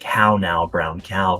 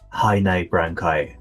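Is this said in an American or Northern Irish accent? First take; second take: American; Northern Irish. First: It is said with an American accent. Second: It is said with a Northern Irish accent.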